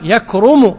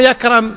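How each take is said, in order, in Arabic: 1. الحركة الوسطى ضمة. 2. الحركة الوسطى ليست ضمة.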